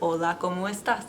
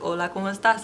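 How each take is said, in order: First: The phrase is spoken at a fairly slow pace. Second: The phrase is spoken at a moderate pace. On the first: "And then you say it a little faster" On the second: "A little faster"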